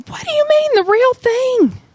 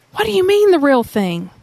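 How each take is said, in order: First: Much higher, indignant protest; the dad bristling at the question; offended dad. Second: Said in the usual way. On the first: Retold or imitated. Defensive dad protesting to Jesus, high and indignant. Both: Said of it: "The dad is like".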